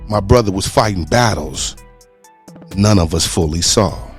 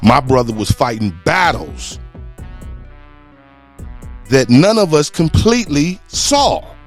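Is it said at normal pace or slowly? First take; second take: normal pace; slowly. First: It is said at a normal pace. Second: It is said slowly and deliberately.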